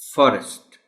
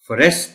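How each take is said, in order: First: The stress is on the first syllable. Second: The stress is on the second syllable. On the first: The speaker calls it right. "इसमें जो primary stress है वो एफ पर है" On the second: The speaker calls it wrong. "आप forest नहीं कह सकते"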